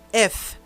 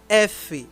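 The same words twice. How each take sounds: First: The letter name ends without any final vowel. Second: The letter name ends with an extra vowel. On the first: The speaker calls it right. "tirar o E no final, fica assim" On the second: The speaker calls it wrong. "Não é F"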